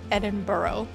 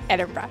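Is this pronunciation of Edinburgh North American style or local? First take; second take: North American; local. First: It is said the way North Americans say it. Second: It is said the way locals say it. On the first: The speaker calls it wrong. "many North Americans pronounce Edinburgh like Edinburgh, but that's not right" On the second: The speaker calls it right. "Repeat after me"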